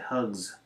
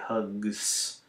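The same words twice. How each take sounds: First: The word ends with a buzzing z sound. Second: The word ends with a hissing s sound. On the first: The speaker calls it right. "Then the S has to be a Z" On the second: The speaker calls it wrong. "it's hard to say hugs"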